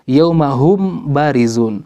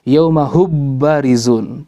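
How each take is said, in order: First: The m is pronounced fully and separately. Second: The m is merged fully into the b. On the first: "Bagaimana kalau kita membaca izhar?" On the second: "Kalau dibaca idgham"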